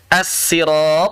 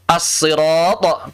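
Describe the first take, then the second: First: "as-sirat" slow, with light plain s; sin sound. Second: "As-sirat" slow, with heavy emphatic s; sad sound. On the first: Teacher shows second reading, "as-sirat" with plain sin. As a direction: keep the doubled s of "as-sirat" thin and light. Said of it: "pakai sin". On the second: Teacher shows first of three readings, "As-sirat" with heavy sad. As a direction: thicken the doubled s of "As-sirat" into sad. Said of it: "pakai sad". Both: Shown as a demonstration.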